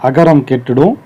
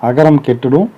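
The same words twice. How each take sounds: The two takes are said the same way.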